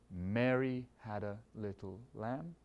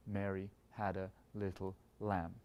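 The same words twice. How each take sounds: First: "Mary" heavy, rest lighter, slow; slow, stress on MARY. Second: "lamb" heavy at the end, quieter start; stress on LAMB. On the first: Conductor recapping the first example, first beat heavy. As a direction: weigh down "Mary", then lighten slowly. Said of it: "first beat is heavy". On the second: Conductor recapping the second example, last beat heavy. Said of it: "the last beat is heavy". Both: Shown as a demonstration.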